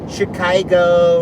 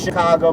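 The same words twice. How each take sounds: First: The name is pronounced in an odd way. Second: The name is pronounced the usual way. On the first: The speaker calls it wrong. "he'll pronounce like place names wrong" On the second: The speaker calls it right. "instead of Chicago"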